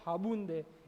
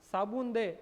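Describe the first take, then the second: First: The first word begins with an h sound. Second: The first word begins with an s sound.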